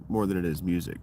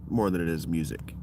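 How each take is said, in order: Both takes have the same delivery.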